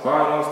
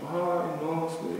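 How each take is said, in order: First: It is said quickly, run together. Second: It is said slowly, with pauses.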